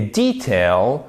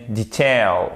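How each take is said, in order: First: Detail as DEE-tail, stretched slowly; British pronunciation. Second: Detail as di-TAIL; American pronunciation. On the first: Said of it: "le détail en version britannique". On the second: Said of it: "et en version américaine". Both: Shown as a demonstration.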